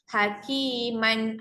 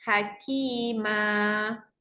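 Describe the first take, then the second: First: The word ends with an n sound. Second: The word ends on an open two-beat vowel. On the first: This is the full form of the word. "Asal perkataan hakiman" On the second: The reader stops on this word. "Dua harakat sahaja"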